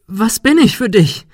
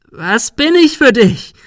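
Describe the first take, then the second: First: High, loud ghostly question; eerie accusation. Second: High, loud, slow shrieking question. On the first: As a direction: demand it hauntingly. Ghostly Sarah asks Ben. (hohe, unheimliche Frage) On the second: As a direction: screech it at him. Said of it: "Sarah kreischte". (kreischend, hoch und laut) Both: A narrator's reading.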